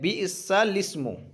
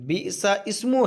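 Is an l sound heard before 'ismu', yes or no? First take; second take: yes; no. First: An l sound comes before 'ismu'. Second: No l sound comes before 'ismu'. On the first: The speaker calls it right. "लेकिन ये हकीकत में क्या है, बीसल इस्मो है ना" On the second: The speaker calls it wrong. "यूँ लगेगा कि शायद इसमें बीसा इस्मो है"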